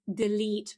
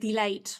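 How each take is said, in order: First: The second vowel sounds like 'ee'. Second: The second vowel sounds like 'ay'. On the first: The speaker calls it right. "But this is delete" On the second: The speaker calls it wrong. "Very often people say something like delayed"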